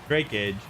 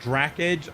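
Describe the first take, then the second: First: The name is said as Drake plus age. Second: The name is said as Drac plus Edge. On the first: The speaker calls it right. "my nickname in the Navy was Drakeage" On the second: The speaker calls it wrong. "I get Drac Edge a lot"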